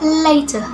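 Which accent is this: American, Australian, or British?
British. It is spoken with a British accent. "In British accents"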